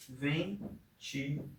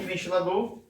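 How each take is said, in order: First: "Ventilador" very slow and soft, split ven-ti-la-dor; syllable by syllable. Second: Said in the usual way. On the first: Shown as a demonstration. Teacher counting four syllables for a pupil, "Ventilador" syllable by syllable. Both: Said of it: "Quatro sílabas".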